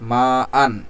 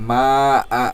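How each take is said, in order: First: The word ends with an n sound. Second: The word ends with a lengthened vowel. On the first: "মিম আলিফ জবর মা আলিফ দুই জবর আন" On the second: "দুই জবর পড়ব না, বরং এখানে এক আলিফ টান দিয়ে আমরা পড়ব"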